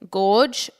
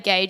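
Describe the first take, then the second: First: The word sounds like gorge. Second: The word does not sound like gorge. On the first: The speaker calls it wrong. "I used to say gorge, and apparently that's incorrect" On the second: The speaker calls it right. "I say gauge as well"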